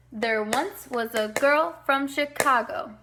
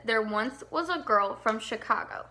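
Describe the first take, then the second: First: Put-on slower, stressed limerick beat on "girl" and "Chicago"; sing-song the beat, stressing "girl"; with the rhythm. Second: Said in the usual way. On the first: Shown as a demonstration. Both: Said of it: "I'm gonna do the rhythm".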